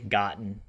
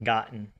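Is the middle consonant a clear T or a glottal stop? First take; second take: glottal stop; glottal stop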